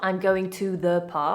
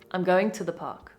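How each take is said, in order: First: 'To' is said with a full vowel. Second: 'To' is reduced to a short schwa. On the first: The speaker calls it wrong. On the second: The speaker calls it right.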